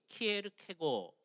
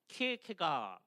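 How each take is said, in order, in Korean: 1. 이 이름은 'go' 소리로 끝나요. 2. 이 이름은 'ga' 소리로 끝나요. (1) "덴마크 사람들이 키에르케고 그게 아마 제일 가까운 것 같아요" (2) "서양 사람들은 키에르케가 이렇게 발음을 많이 합니다"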